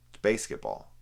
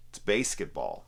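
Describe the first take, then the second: First: Said much lower with a falling end; a low, dropped It's Basketball; lower take. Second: Said in the usual way. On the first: Shown as a demonstration.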